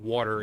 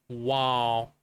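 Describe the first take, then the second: First: It is said in a neutral accent. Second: It is said nasally in a Southern accent. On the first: "Instead of water" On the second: "it's wall. Like a very like nasally"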